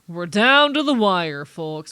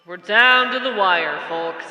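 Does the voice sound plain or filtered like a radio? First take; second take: plain; radio. First: The voice sounds plain, with no radio filter. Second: The voice sounds filtered like an old radio. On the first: "Puts an announcer voice" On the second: "I have a radio effect"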